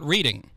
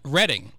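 First: The word is said as the verb. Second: The word is said as the town name. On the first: It means looking at written words. The speaker calls it wrong. "not reading" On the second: It names the town in Pennsylvania. The speaker calls it right. "I know how to pronounce Reading"

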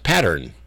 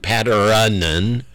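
First: The word is said with two plain syllables. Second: The word has an extra sound inside it. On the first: The speaker calls it right. "It's pattern" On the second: The speaker calls it wrong. "It isn't patteronen"

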